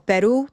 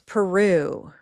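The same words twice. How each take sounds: First: The stressed syllable is kept short. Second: The stressed syllable is drawn out long. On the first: This is how the other language says the word. "we might give it a different stress" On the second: This is how English speakers say the borrowed word. "Notice how much longer it lasts in time"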